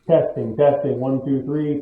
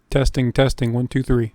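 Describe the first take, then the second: First: The voice sounds distant, quiet and low in gain. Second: The voice sounds robotic, with echoing feedback. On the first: "I'm about maybe four feet away from the camera and the integrated microphone" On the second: "that feedbacky kind of robot voicey thing going on there"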